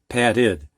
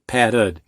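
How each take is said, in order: First: The ending is a short 'id' sound. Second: The ending is an overemphasized 'ud' sound. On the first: This is how the speaker normally says it. "I say it more like id" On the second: This follows the dictionary's recommendation. "I'm overemphasizing it"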